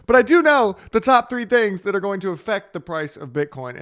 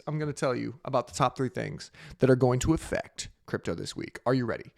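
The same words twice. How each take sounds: First: Said in the usual way. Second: Sultry DJ voice. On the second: Acted. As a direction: purr it like a late-night DJ. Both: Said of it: "with my sultry D J voice".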